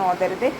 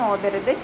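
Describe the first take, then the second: Both takes have the same delivery.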